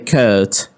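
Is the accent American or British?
British. It is said with a British accent. "In British English they say"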